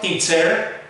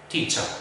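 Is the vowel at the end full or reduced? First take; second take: full; reduced. First: The final syllable has a full vowel. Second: The final syllable has a reduced schwa vowel. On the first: The speaker calls it wrong. "Not teacher" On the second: The speaker calls it right. "a schwa at the very end"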